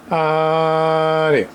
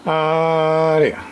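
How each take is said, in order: Both takes have the same delivery.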